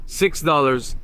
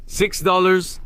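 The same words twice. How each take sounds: First: "Six dollars." said with a falling, final tune; settled fall. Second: "Six dollars?" asked with a rising question tune; questioning rise. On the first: Shopper accepting the seller's price, falling tune. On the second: Shopper double-checking the price with the seller, rising tune. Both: Real, not acted.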